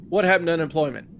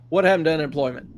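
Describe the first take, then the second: Both takes have the same delivery.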